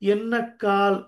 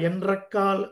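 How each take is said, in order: First: The middle consonants are a softened double n. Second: The middle consonants are a harsher n-r cluster. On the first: This is the gentle recited form. "సాత్వికంగా పలుకుతాం" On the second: This is the written form. "అది కొంచెం వినడానికి కఠినంగా ఉంటుంది"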